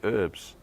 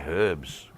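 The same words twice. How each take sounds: First: The word starts with a vowel, no h. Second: The word starts with an audible h sound. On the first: This is how Americans say it. "Because we say herbs" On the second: This is how the speaker says it. "because there's a H at the beginning"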